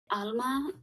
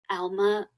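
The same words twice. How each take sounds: First: The name is said with a Spanish pronunciation. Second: The name is said with an English pronunciation. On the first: The speaker calls it right. "Alma in Spanish means soul, and I love that pronunciation" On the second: The speaker calls it wrong. "but I don't like Alma as much"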